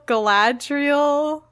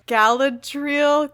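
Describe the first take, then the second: First: Galadriel stressed on the second syllable, ga-LAD-riel, asked as a question; unsure pronunciation. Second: Galadriel stressed on the first syllable, GAL-a-driel; unsure pronunciation. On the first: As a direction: Galadriel as kuh-LAD-reel with a questioning rise. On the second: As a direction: Galadriel said as KAL-uh-dreel, hesitantly. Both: Shown as a demonstration. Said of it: "How do you say her name?".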